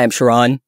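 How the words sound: The pitch falls at the end. The speaker sounds angry. "introducing ourselves with a down inflection"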